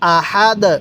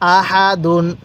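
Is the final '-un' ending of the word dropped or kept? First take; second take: dropped; kept. First: The word stops on the final 'd' sound. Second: The word ends with a full '-un' ending. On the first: The reader stops at this word. "ওয়াকফ করলে কিভাবে পড়ব? ... দুই পেশকে বাদ দিয়ে দিব" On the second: The reading continues without stopping. "দাল দুই পেশ দুন"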